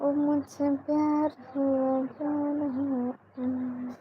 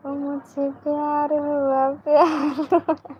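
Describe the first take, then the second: First: Slow, soft, dreamy film-hero delivery of a love line; drawn out and softer, like a romantic movie scene; filmy dialogue. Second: Slow, lightly romantic film line with a lift on प्यार; filmy dialogue on request. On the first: Pretend. Policewoman on a live chat reciting a romantic film dialogue, soft and slow. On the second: Shown as a demonstration. Viewers ask her to repeat the dialogue, so she gives a slow playful filmy take. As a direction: say the love dialogue again for the viewers, a bit more playful. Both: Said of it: "एक बार फिर से dialogue बोलो ना".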